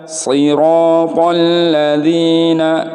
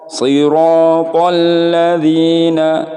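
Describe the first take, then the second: No difference in how they are said.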